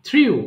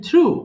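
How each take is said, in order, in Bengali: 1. স্বরধ্বনিটি 'ee' থেকে 'oo'-তে গড়িয়ে যায়। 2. স্বরধ্বনিটি একটাই সাধারণ 'oo'। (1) "not থ্রিউ" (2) "it should be থ্রু"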